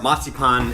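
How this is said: It is said with a German pronunciation. "as they say in German"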